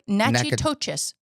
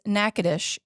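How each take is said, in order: First: The name is sounded out as it is spelled. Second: The name sounds quite unlike its spelling. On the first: The speaker calls it wrong. "It looks like" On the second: The speaker calls it right. "but it is"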